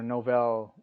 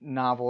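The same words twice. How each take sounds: First: "novell" said as no-VEL; alternative pronunciation. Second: "novel" said as NAH-vul; standard pronunciation. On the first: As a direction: put the stress on the end of "novell". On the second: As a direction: stress the first syllable of "novel". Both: Shown as a demonstration. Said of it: "learning what novel or novell".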